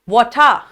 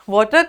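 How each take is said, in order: First: The word is said with a British pronunciation. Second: The word is said with a non-British pronunciation.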